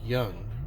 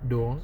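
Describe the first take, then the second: First: The name begins with a Y sound. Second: The name begins with a D sound. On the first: The letter D has no cross on it. "if you don't have a cross on the D, then you would pronounce the D as a, a Y" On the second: The letter D has a cross on it. "had he actually had a D with the cross on it, then I guess you would pronounce it as"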